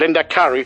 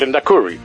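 First: The word ends with an 'ari' sound. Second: The word ends with an 'uri' sound. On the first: The speaker calls it right. "siempre será el Lehendakari" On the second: The speaker calls it wrong. "nunca el Lehendakari"

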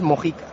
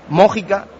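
First: The stress does not fall on the first syllable. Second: The stress falls on the first syllable. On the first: The speaker calls it right. "y es Mójica, que dice que no tiene tilde en la O" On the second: The speaker calls it wrong. "Estás diciendo Mójica"

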